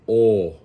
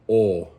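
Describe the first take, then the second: Both takes have the same delivery.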